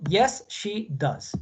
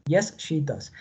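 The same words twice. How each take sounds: First: Drawn-out, careful answer; teacher modelling a short answer very slowly; very slow model answer. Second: Said in the usual way. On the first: Shown as a demonstration. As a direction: stretch every word for the class. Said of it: "para responder positivo".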